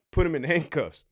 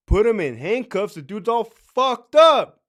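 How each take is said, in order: First: Offhand, innocent-sounding report to the sergeant; evasive understatement. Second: Louder, higher disbelief; acted indignant disbelief, building in volume; incredulous outburst. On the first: Acted. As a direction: play it down casually. Acted evasive officer answering the sergeant. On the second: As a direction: throw the excuse back loudly, stretching the last words. Acted incredulous reply to officer's excuse.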